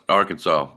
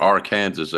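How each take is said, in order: First: Said in the usual way. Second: "Arkansas" said as ar-KAN-zus; William's pronunciation of Arkansas. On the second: Retold or imitated. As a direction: rhyme the end of "Arkansas" with Kansas, final s sounded. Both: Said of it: "as William likes to say".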